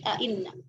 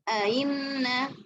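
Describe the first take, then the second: First: Second glottal stop fully clear, no vowel inserted. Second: Second glottal stop eased, no vowel inserted before. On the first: "tahqiq hamzah kedua tanpa idghal" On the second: "tafsir hamzah kedua tanpa idghal"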